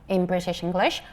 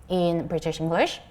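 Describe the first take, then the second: The two takes are said the same way.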